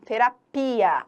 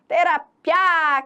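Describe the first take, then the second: First: The i is heard as its own syllable. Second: The i glides into the final a. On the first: The speaker calls it right. "Não, terapia. A gente ouve cada um dos fonemas" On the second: The speaker calls it wrong. "Alguém fala terapia? ... que já foi"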